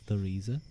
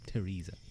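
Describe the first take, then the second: First: It begins with a soft 'th' sound. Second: It begins with a hard 't' sound. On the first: The speaker calls it wrong. "Do you go like the Theresa" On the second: The speaker calls it right. "or do you Teresa, t t? So like take Teresa"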